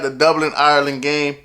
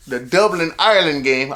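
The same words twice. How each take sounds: First: Said in the usual way. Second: Mock Irish lilt on the place names; hint of a hammed-up Irish accent; bad Irish accent. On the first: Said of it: "I don't know why I did that". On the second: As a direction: attempt a joking Irish accent, badly. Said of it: "I don't know why I did that. I'm sorry, Irish people".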